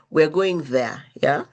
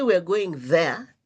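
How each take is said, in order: First: Yeah rising like a question; question tune. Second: There falls and closes the statement; falling statement. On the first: Asking friend to confirm, yeah rising. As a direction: make yeah lift into a question. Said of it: "So the difference would be". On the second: Telling the group plans, there falling as settled. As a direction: end "there" flat and final. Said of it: "it's done. The statement has ended". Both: Shown as a demonstration.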